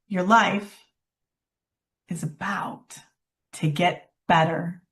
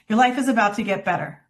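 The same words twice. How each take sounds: First: It is said slowly, with feeling and a pause. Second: It is said quickly in a flat voice. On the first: The message is remembered. The speaker calls it right. "slow down and add some tone and drop in a pause" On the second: The message is easily forgotten. The speaker calls it wrong. "Say it quickly and flat"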